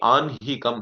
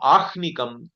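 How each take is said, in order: First: The h sound comes after the n sound. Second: The h sound comes before the n sound. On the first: The speaker calls it right. "It should be Anhikam" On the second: The speaker calls it wrong. "it is not Ahnikam"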